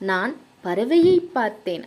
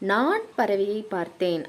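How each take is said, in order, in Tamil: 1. அழுத்தம் இரண்டாவது சொல்லில் விழுகிறது. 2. அழுத்தம் முதல் சொல்லில் விழுகிறது. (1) "பறவையை என்னும் சொல்லுக்கு அழுத்தம் கொடுத்தோம்னா" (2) "நான் என்னும் சொல்லுக்கு அழுத்தம் கொடுத்தால்"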